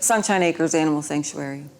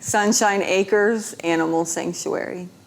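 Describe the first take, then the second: First: The name is said at a quick pace. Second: The name is said at a slower pace.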